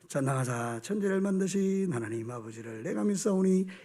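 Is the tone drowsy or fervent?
drowsy. It is said drowsily, without conviction.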